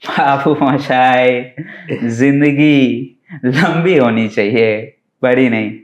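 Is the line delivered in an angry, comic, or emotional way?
comic. The line is delivered in a comic, playful way. "એક comedy"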